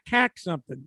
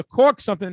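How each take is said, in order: First: "cack" with a short flat a, as in back; Boston-style mispronunciation. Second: "caulk" with a rounded aw vowel, firmly; standard pronunciation. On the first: Co-host mocking the clerk's word, "cack" with a short a. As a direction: say "cack" for caulk. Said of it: "I'm looking to caulk something". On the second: Co-host clarifying he wants to caulk something, "caulk" with a clear aw. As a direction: say "caulk" with an aw, not a short a. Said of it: "not cack something". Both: Shown as a demonstration.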